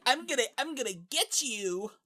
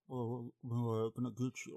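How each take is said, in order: First: High, nasal-free cartoon villain squeak; squeaky villain voice. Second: Soft, menacing killer voice; a hint of a quiet creepy killer; Buffalo Bill. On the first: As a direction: play him like a Team Rocket villain. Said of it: "that's what he sounds like". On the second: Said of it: "more like, um, Buffalo Bill".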